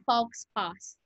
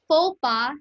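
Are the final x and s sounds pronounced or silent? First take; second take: pronounced; silent. First: The final x and s sounds are pronounced. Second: The final x and s sounds are silent. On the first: The speaker calls it wrong. "hindi faux pas" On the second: The speaker calls it right. "Silent X, silent S"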